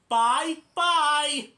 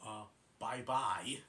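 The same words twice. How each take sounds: First: Much higher and louder chipmunk bye-bye; Alvin's bye-bye. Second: Lower, slow, puzzled bye-bye; Great Prince's bye-bye. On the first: Alvin cheekily copying goodbye, high loud chipmunk squeak. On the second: Great Prince answering Alvin's goodbye, low slow voice. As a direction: drop low and drag it out. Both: Retold or imitated.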